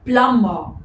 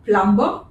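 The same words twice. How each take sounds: First: No B sound is heard after the M. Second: A B sound is heard after the M. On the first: The speaker calls it right. "The B is silent" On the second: The speaker calls it wrong. "is it plumber? No"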